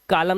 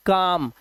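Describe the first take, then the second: First: कालम with the l sounded; two syllables, का-लम, audible l; wrong pronunciation. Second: काम with silent l; one syllable काम, long aa into m; correct pronunciation. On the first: Teacher warning against misreading, कालम with l. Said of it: "कालम नहीं". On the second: Teacher showing l before m, काम without l. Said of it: "इसे पढ़ते हैं". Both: Shown as a demonstration.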